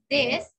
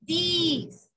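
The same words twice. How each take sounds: First: "this" said short, close to "dess"; short E-like vowel. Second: "this" pronounced "these", with a long EE. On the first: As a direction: keep the vowel of "this" short and open. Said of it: "como con una E". ("this" corto, con sonido de E) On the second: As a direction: stretch "this" into "deees". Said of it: "Es parecida a esta, pero este es". ("this" con I larga, como "diis") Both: Shown as a demonstration.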